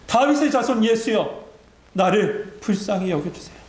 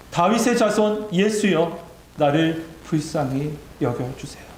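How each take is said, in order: First: Higher-pitched pleading call, easing at the end; acted cry for mercy, raised in pitch; louder crying out. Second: Mildly acted cry for mercy. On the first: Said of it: "전보다 더 크게 소리 지릅니다". (높은 음으로 외치는 간청) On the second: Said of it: "있는 힘껏 소리칩니다". (길게 외치다 잦아드는 간청)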